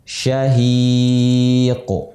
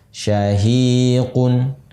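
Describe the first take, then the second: First: The word ends without the nasal 'n' sound. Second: The word ends with the nasal 'un' sound. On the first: The reader stops at this word. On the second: The reading continues on without stopping.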